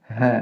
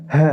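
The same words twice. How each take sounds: First: The h sound is soft and flowing. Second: The h sound is pushed out forcefully. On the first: The speaker calls it right. "Yang betul adalah dari uh, pangkal tenggorokan" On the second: The speaker calls it wrong. "Terkadang masih terlalu kuat H-nya"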